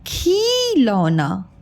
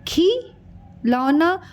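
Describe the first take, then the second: First: खिलौना drawn out very slowly with a short खि; slow correct pronunciation. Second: खी stretched long before लौना; wrong drawn-out खी. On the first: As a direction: model the correct word slowly. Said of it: "और ये है". (सही उच्चारण: खिलौना बहुत धीरे) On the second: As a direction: demonstrate the mistake: खी, pause, लौना. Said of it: "ये देखिए उच्चारण में खी". (गलत उच्चारण: खी खींचकर) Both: Shown as a demonstration.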